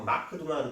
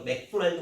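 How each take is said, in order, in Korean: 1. k 소리 뒤에 모음이 추가로 들어가요. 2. k 소리가 첫 음절을 닫아요.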